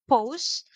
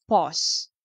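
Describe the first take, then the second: First: "pose" said with a long oh vowel, poz, set against "pause"; pronunciation of pose. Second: "pause" said like paws, long aw vowel ending in z; pronunciation of pause. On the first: Teacher contrasting "pose" with "pause" for the class, long oh. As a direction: say "pose" as poʊz with a rounded oh glide. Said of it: "Iba po yung pose". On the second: Teacher showing students how to say "pause", pɔz with a long aw. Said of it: "ang pronunciation po dyan sa number five". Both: Shown as a demonstration.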